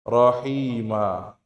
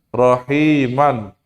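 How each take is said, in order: First: The word ends with a long a. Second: The word ends with an n sound. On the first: "kalau kita wakaf menjadi apa? Rohima. Dua harokat" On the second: "ini tanwin"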